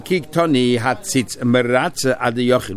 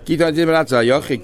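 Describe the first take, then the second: First: Slow, word-by-word reading of the source line; slow text reading. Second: Fast recap of the same quoted line; quick re-quote. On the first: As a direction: read the quote out slowly, weighing each word. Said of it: "five lines to the bottom". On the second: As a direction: rattle the quote off quickly as a reminder. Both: Shown as a demonstration.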